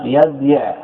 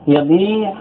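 First: يبيع as yab-yi', second y sounded; underlying form. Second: يبيع as yabii', long ii held; surface form. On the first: Teacher modelling it on a sound verb, yab-yi'. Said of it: "ائت بمثال صحيح مثله". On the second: Teacher comparing a weak verb to a sound one, long yabii'. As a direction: hold the long vowel in يبيع: ya-bii'. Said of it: "مثل يضرب". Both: Shown as a demonstration.

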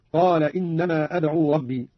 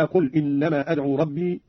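First: قال with a long "aa", "qaala"; past-tense reading. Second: Said in the usual way. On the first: Shown as a demonstration. Teacher giving Qalun's past-tense variant, قال said "qaala". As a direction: slowly recite قال as "qaala", not "qul". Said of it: "على الفعل الماضي". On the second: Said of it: "قوله تعالى".

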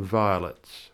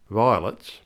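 First: Said in the usual way. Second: VIOLETS squeezed into a slangy vernacular form; vernacular pronunciation. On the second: Shown as a demonstration. Presenter explaining a title, vernacular VIOLETS. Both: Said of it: "the vernacular rendering of violets".

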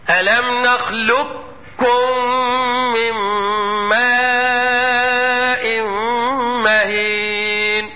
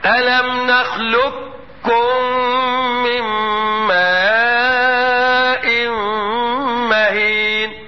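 First: "نخلقكم" chanted with the qaf merged into a doubled kaf; full assimilation. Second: "نخلقكم" chanted again with a fully merged doubled kaf, very slow; careful repeat. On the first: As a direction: recite "نخلقكم" as nakhlukkum, slow and chanted. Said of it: "هكذا". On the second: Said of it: "أقول تاني واسمع النطق كويس". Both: Shown as a demonstration.

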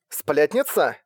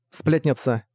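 First: «Сплетница?» с вопросительной интонацией; переспроси «Сплетница?» как незнакомое имя; переспрос. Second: Said in the usual way. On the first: A narrator's reading. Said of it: "переспросила Фестиваль". (удивлённый переспрос «Сплетница?»)

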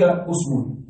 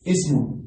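First: اسم said "usmun", opening on a u; slow, clear u vowel starting اسم; usm with damma. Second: اسم said "ismun", opening on an i; ism with kasra. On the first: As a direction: pronounce اسم with initial u, "usmun". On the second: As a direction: pronounce اسم with initial i, "ismun". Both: Shown as a demonstration. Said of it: "كلمة اسم فيها ست لغات".

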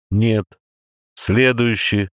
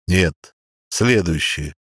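First: Said in the usual way. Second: Archangel voice. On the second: A narrator's reading. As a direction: pronounce judgment slowly. Archangel rejects candidate. (строгий голос архангела)

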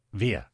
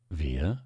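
First: Startled little call, mildly lifted; quick surprise. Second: Measured, understated questioning repeat; unruffled echo. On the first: Doctor looks up at the famulus, quick and surprised. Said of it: "schnell und überrascht zu ihm emporschauend". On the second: Famulus repeats the doctor's question, an unruffled echo. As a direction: echo the question back without the surprise. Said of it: "wiederholte der Famulus". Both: A narrator's reading.

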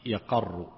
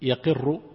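First: يقر with a after the qaf; fatha on the qaf. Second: يقر with i after the qaf, raised pitch; kasra on the qaf. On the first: Sheikh giving others' variant present tense, yaqarru with fatha. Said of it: "مع أن بعضهم ضبطه في المضارع". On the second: Sheikh teaching the present tense, yaqirru with kasra. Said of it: "بالكسر في المضارع". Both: Shown as a demonstration.

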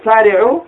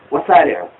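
First: سارعوا starting straight on the s, no wa; سارعوا read without an opening "wa"; without the waw. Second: وسارعوا opening with an extra "wa"; وسارعوا read with "wa-" joined on the front; added waw. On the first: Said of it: "وده بعدمه". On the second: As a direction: sound the waw before the s in وسارعوا. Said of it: "ده بقري بزيادة واو مثلًا". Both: Shown as a demonstration.

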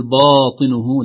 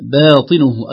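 First: "باطنه" with dark, backed "baa"; wrong heavy ba. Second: Loud, drawn "باطنه" with thin fronted "bae"; light ba. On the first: Sheikh warns of the slip, "باطنه" with heavy ba. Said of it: "لا نقول". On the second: Sheikh models right reading, "باطنه" with thin ba. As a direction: keep the long a of "باطنه" light before heavy ta. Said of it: "ترقيق الباء". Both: Shown as a demonstration.

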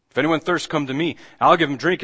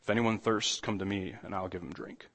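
First: Louder, higher proclamation; proclaiming aloud. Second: Much softer, lower, inviting call; soft, hushed invitation. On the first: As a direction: call it out across the festival crowd. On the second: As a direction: offer it gently, almost under the breath. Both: Retold or imitated. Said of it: "he stands up and he says".

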